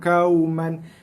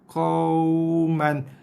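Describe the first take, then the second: First: It starts with a light 'kau' sound. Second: It starts with a full deep 'qa' sound. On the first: The speaker calls it wrong. "Ramai yang baca macam tu. ... Bukan kau, tapi qa" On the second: The speaker calls it right. "Bunyi asal qa, baru masukkan bunyi waw mati"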